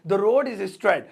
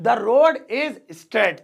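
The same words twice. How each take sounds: First: Said in the usual way. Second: Drawn out word by word; very slow model sentence. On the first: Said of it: "first take at normal pace". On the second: Shown as a demonstration. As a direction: dictate it slowly for learners. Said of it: "slow repeated model sentence".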